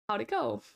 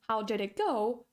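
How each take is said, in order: First: The words are squeezed together with sounds dropped. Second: Every word is pronounced fully and separately. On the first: "turns into how to go" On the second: "how did it go often turns into"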